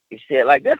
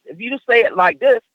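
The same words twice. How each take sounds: First: Pitch down. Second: Higher pitch, lifting on "this". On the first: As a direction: lower pitch through to "this". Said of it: "pitch down". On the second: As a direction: demonstrate a raised tone up to "this". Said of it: "pitch up". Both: Shown as a demonstration.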